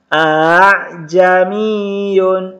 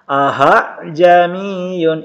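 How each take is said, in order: First: The second glottal catch is softened, between catch and vowel. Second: The second glottal catch is replaced by an h sound. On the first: The speaker calls it right. "yang kedua dibaca samar, yaitu antara hamzah dan alif" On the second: The speaker calls it wrong. "jangan juga diganti dengan ha"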